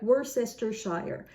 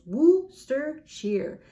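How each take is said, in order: First: Worcestershire said as spelt, every syllable; spelling pronunciation. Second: Worcestershire as WUS-ter-sheer, slow and clear; three-syllable Worcestershire. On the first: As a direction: read Worcestershire literally, all syllables. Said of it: "something like Worcestershire". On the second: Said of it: "So basically three syllables". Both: Shown as a demonstration.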